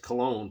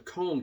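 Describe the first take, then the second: First: The name is said like English 'Cologne'. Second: The name is said like German 'Köln'. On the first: "some of you pronounce that as Cologne" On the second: "I'm going to pronounce it as the Cone Concert"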